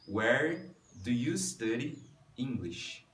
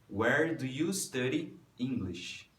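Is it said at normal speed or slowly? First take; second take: slowly; normal speed. First: It is said slowly. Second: It is said at normal speed.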